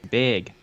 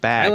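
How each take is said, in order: First: The vowel is raised, close to big. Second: The vowel is open, as in plain bag. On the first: "Up in Wisconsin, it's big" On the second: "but here it's"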